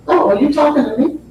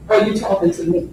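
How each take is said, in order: First: Quick, lightly amused "Oh, are you talking to me?" with a laugh in it; casual mock reply. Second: Softer and lower "Are you talking to me?", landing down on "me"; low, quiet reply. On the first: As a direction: toss "Oh" off as if it's nothing. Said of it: "Nigella's response is". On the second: Retold or imitated. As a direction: drop the voice for the quote. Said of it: "her response to those allegations are".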